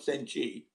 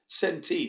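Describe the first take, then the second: First: The word ends with a 'chee' sound. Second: The word ends with a 'tee' sound. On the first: This is how Japanese speakers say it. The speaker calls it wrong. "they say senchi" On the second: This is how English speakers say it. The speaker calls it right. "Centi, not senchi"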